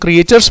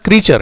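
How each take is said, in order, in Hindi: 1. पहला हिस्सा दो ध्वनियों में बोला जाता है, cree-ay। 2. पहला हिस्सा एक ध्वनि में बोला जाता है, cree। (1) "बहुत से लोग प्रोनाउंस करते हैं" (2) "सही प्रोनाउंसिएशन इसका क्रीचर है"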